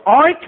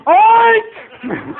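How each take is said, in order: First: Short, loud, higher oink; pig oink. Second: Long, very high, loud squeal of an oink; louder pig oink. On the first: Recruit obeys sergeant, short imitated pig oink. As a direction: give one brief oink on command. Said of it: "sound like a pig". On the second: Recruit told to be louder, high drawn-out pig oink. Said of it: "Louder, Bemis, louder". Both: Retold or imitated.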